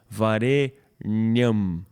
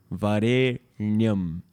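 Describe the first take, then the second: The two takes are said the same way.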